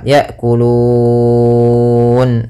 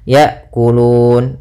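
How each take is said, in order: First: The long vowel is held for six counts. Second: The long vowel is held for two counts. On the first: "enam harokat" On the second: "dua harokat"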